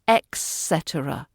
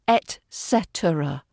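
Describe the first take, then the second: First: The first word is said as ex, with x. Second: The first word is said as et, without x. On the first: The speaker calls it wrong. "not et cetera. There's no X anywhere near it" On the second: The speaker calls it right. "But it's et cetera"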